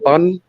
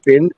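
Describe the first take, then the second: First: The vowel sounds like a short 'u' sound. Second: The vowel is a short 'i' sound. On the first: "Sounds more like they're saying bun instead of bin" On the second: "They don't say bin as in rubbish bin"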